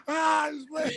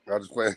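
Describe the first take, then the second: First: High, laughing repeat. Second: Said in the usual way. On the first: Real, not acted. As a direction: crack up while saying it.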